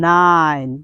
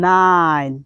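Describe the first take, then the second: Both takes have the same delivery.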